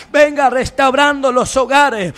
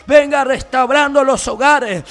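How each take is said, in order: Both takes have the same delivery.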